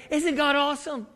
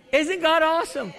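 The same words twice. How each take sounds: First: Said in the usual way. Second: Isn't God awesome higher and louder; building preacher's call; louder repeat. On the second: Acted. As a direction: push it harder the second time.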